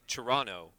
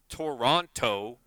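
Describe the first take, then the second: First: It is said the way most people say it. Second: It is said just as it is spelled. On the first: This is how most people say the name. "but we say Toronto" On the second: This is how the name is written. "It's spelled Toronto"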